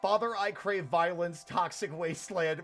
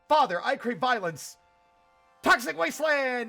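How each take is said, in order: First: It is said in a normal, puzzled voice. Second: It is yelled like Dale Gribble's battle cry.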